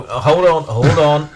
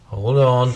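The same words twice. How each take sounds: First: Calls out hold on, loud and higher; loud calling out. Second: Said in the usual way. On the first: Real, not acted. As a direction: cut in loudly to stop him. Cutting in to correct husband.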